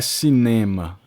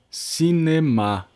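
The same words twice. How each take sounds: First: Cinema stressed on the middle syllable, Portuguese style; Portuguese cinema with a strong middle syllable; wrong stress. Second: Slow cinema with all syllables evened out; French stress. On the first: Teacher giving students the wrong version, Portuguese stress. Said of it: "não é cinema". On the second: Teacher giving students the right version, even French stress. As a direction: cinema said slowly, no syllable heavier than the others. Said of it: "não é cinema, é cinema". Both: Shown as a demonstration.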